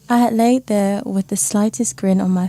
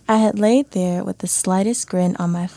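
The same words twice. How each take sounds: First: It is read in a British accent. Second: It is read in an American accent. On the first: "Can I hear some of that British accent?" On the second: "Now read it in American style"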